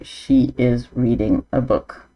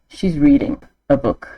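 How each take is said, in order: First: She is is said as two full words. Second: She is is shortened to one syllable. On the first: The speaker calls it wrong. "I wouldn't say she is reading a book" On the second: The speaker calls it right. "I'd say she's reading a book"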